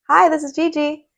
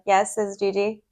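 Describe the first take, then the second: First: It is said smiling, cheerful and warm. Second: It is said flat, without a smile.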